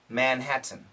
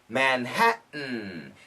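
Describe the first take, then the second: First: The T in the middle is fully pronounced. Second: The T in the middle is a glottal stop. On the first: "the perfect pronunciation in America would be Manhattan" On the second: "And that's a glottal stop"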